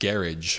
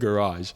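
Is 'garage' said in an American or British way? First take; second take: British; American. First: The word is said the British way. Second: The word is said the American way. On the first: It was picked up from British friends. "I ended up saying garage" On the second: It is the speaker's usual way. "instead of garage"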